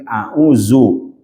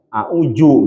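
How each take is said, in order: First: The middle consonant is a z sound. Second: The middle consonant is a j sound. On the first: "Dia zal itu jadi za" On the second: "agak parah lagi, auju gitu"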